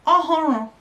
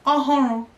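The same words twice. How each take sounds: The two takes are said the same way.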